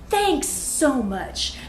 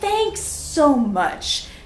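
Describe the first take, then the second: First: It is said plainly, without much feeling. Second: It is said warmly, with strong feeling.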